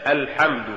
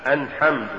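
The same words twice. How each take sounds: First: Said in the usual way. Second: الحمد said "an-hamd", ن for ل; faulty reading of الحمد, n replacing l; mispronounced ل. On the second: Shown as a demonstration. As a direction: say الحمد with n in the article. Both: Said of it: "تقرأ لحنا".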